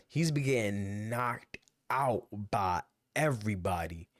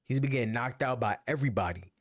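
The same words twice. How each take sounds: First: "he's been getting knocked out by everybody" drawn out slowly and lower; slow emphasis. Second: Said in the usual way. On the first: Real, not acted. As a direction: let each word sink in, slow and heavy. Repeats point for emphasis.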